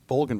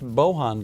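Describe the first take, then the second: First: The name is said with an L sound. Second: The name is said without an L sound. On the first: This is how the speaker habitually says it. "I always pronounce it" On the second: This is how the name is supposed to be said. "I'm told it's pronounced"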